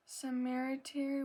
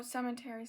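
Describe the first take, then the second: First: "cemetery" said as se-MER-a-terry with an extra syllable; cemetery mispronounced. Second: "cemetery" said cleanly as SEM-uh-terry; careful fixed "cemetery" as SEM-uh-terry; cemetery corrected. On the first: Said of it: "sorry guys". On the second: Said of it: "oh, cemetery". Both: Real, not acted.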